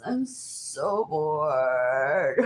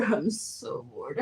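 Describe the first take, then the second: First: Bored. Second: Laughing. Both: Real, not acted.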